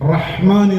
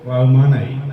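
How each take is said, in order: First: The breathy 'h' sound is clearly pronounced. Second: The breathy 'h' sound is left out. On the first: The speaker calls it right. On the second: The speaker calls it wrong.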